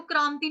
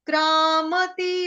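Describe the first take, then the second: First: क्रांति in two syllables with a nasal m, spoken quickly; wrong run-together reading. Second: क्रामती chanted slowly as kraa-ma-tee, three syllables; full MA. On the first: Teacher warns against misreading, क्रांति run together in two syllables. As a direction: say क्रांति unchanted, the m losing its vowel. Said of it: "इसको क्रांति नहीं पढ़ेंगे". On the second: Teacher shows the correct reading, क्रामती chanted with a full ma. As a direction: give क्रामती a full short ma between long vowels. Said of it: "म पूरा". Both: Shown as a demonstration.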